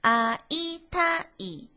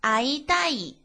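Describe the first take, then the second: First: It is said slowly and deliberately. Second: It is said quickly.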